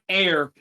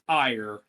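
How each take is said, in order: First: The name rhymes with 'care'. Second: The name rhymes with 'fire'. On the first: The speaker calls it wrong. "We've been mispronouncing her name" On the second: The speaker calls it right. "Apparently, it's"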